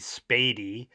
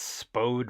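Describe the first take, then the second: First: It is said the local St. Louis way. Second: It is said the way an outsider reads it. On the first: The speaker calls it right. "but it's actually Spady" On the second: The speaker calls it wrong. "You might think that's Spode Road"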